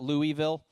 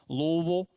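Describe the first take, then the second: First: The word is said clearly, syllable by syllable. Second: The word is mumbled and slurred together. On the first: Locals would laugh at this. The speaker calls it wrong. "It's not Louisville" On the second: This is how locals say it. The speaker calls it right. "you have to act like there are marbles in your mouth"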